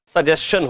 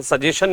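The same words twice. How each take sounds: First: सजेशन said sag-JES-chan with the g and the s clearly sounded; the right way, सजेशन with g and s both heard; correct pronunciation of suggestion. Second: सजेशन said sa-JE-shan with no g sound before the j; the common wrong way, सजेशन with the g dropped; wrong pronunciation of suggestion. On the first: Teacher giving students the correct सजेशन, g and s sounded. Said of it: "सजेशन होता है". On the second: Teacher showing students the wrong सजेशन, g dropped. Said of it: "सजेशन नहीं होता". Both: Shown as a demonstration.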